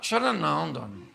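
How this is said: It is said with pity and sadness.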